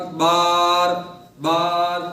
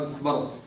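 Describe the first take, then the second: First: The second vowel is stretched out long. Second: The second vowel is kept short and plain. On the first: The speaker calls it wrong. "बार ये भी गलत है" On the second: The speaker calls it right. "नॉर्मल सीधी सीधे लफ्जों में"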